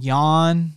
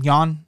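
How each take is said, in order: First: The vowel is long and drawn out. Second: The vowel is short and clipped. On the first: The speaker calls it wrong. "as I like to call him" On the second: The speaker calls it right. "it's supposed to be like a short, on-point name"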